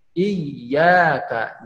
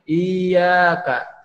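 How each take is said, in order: First: Iyyaka with the ya doubled, held and slow; correct reading. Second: Iyyaka said with a single light ya, no doubling; wrong reading. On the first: Teacher shows the right way to read iyyaka. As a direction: press and hold the double ya in iyyaka. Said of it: "tapi iyyaka". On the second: Teacher shows the wrong way to read iyyaka. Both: Shown as a demonstration.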